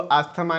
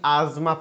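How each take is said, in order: First: The middle is said with an 'sth' sound. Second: The middle is said with a 'z' sound. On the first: The speaker calls it wrong. "इसको आस्थमा नहीं" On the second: The speaker calls it right. "आजमा पढ़ते हैं"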